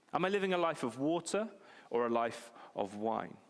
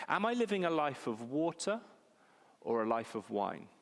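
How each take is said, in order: Both takes have the same delivery.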